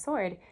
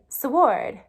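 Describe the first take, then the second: First: The word has its present-day pronunciation. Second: The word has an older, early modern pronunciation. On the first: "instead of" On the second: "in early modern English, you would say"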